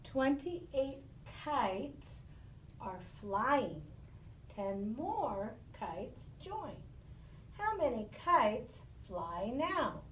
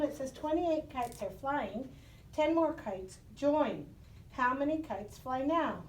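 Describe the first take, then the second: First: Slow, deliberate reading of the problem; slow read-aloud. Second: Said in the usual way. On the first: Shown as a demonstration. Teacher reading a word problem slowly to the class. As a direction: read each phrase slowly, pausing between them. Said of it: "I'm gonna read it first". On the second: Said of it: "go ahead and solve this problem".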